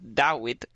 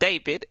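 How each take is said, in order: First: The middle consonant is a w sound. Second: The middle consonant is a v sound. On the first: The speaker calls it right. "It's like Dawid" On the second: The speaker calls it wrong. "It's not David"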